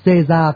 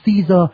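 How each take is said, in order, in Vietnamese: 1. Cái tên được đọc theo cách phát âm tiếng Pháp hiện đại. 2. Cái tên được đọc theo cách phát âm tiếng Anh. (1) "tiếng Pháp hiện đại gọi tên là ông Caesar" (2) "tiếng Anh gọi là ông Caesar"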